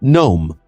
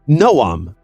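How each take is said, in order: First: The name is said with one syllable. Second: The name is said with two syllables. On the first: The speaker calls it wrong. "not Gnome" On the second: The speaker calls it right. "pronounce your name correctly"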